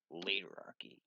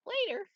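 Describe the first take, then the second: First: Said in the usual way. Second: Surprised echo. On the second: Acted.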